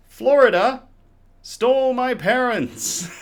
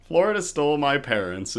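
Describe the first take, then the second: First: Much higher and louder, slowed on stole; grand slow reveal of an absurd title; dramatic title reveal. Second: Said in the usual way. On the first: Acted. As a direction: announce the beer name like a tabloid shock headline. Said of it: "this unique tale wherein". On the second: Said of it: "Florida stole my parents is".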